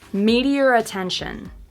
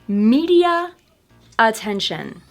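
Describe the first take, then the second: First: An r sound joins the two words. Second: The two words are said apart with a break. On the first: "You can actually see my lips making the R sound between the two words" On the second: "first with the words separated"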